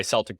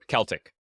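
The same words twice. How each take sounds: First: "Celtic" with an S sound, SELL-tick; soft S at the start of "Celtic". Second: "Celtic" with a K sound, KELL-tick; hard K at the start of "Celtic". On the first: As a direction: say "Celtic" as Seltic. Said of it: "Or Celtic, sorry". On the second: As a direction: correct "Celtic" to Keltic. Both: Real, not acted.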